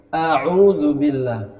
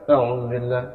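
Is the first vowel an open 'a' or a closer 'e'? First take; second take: open a; closer e. First: The first vowel is a wide open 'a'. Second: The first vowel sounds like a narrow 'e'. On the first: The speaker calls it right. "Jadi a'udzubillah ya" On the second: The speaker calls it wrong. "tidak e, a'udzubillah, tidak seperti itu"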